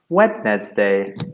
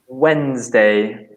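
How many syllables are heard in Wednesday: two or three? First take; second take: three; two. First: It is said with three syllables, as spelled. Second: It is said with two syllables. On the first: The speaker calls it wrong. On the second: The speaker calls it right.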